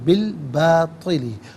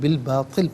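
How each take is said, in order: First: The word ends with a final vowel. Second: The word ends without a final vowel. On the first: The reading continues without stopping. "हम पढ़ेंगे बिल बातिली" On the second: The reading stops here. "रुकेंगे तो बिल बातिल पढ़ेंगे"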